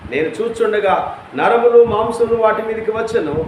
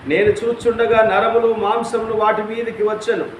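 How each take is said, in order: The two takes are said the same way.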